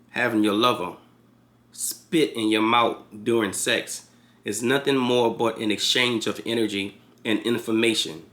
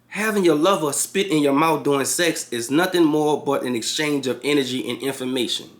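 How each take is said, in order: First: It is read slowly. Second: It is read at a normal speed.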